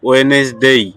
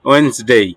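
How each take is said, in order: First: A vowel is sounded between n and s. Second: No vowel is sounded between n and s. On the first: The speaker calls it wrong. "আমরা বলি বলতাম কি ওয়েনেসডেই" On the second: The speaker calls it right. "না ওয়েন্সডেই"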